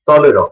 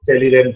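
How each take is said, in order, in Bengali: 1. নামটি ফরাসি ধ্বনি অনুযায়ী উচ্চারিত হয়। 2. নামটি ইংরেজি বানানের ধ্বনি অনুযায়ী উচ্চারিত হয়। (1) "আবার সাবধান করব" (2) "উচ্চারণটা কিন্তু টেলিল্যান্ড নয়"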